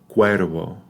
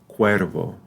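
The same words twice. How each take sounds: The two takes are said the same way.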